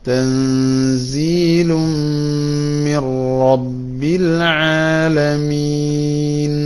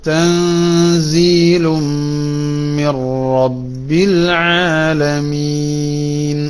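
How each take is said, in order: No difference in how they are said.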